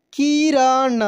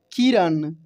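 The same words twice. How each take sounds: First: किरण drawn out as ki, ra, na; syllable by syllable. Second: Said in the usual way. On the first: Shown as a demonstration. Teacher reading for learners, किरण syllable by syllable. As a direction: stretch each syllable of किरण. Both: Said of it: "अब direct पढ़ते हैं".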